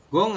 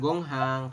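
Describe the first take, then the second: First: No h sound is heard mid-word. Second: An h sound is heard mid-word. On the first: The speaker calls it right. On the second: The speaker calls it wrong.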